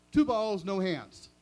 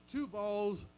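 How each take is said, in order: First: Two balls shouted much louder; loud punchline delivery; punchline blurt. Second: Said in the usual way. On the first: Shown as a demonstration. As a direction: bark out "two balls" as the gag. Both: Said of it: "you ready?".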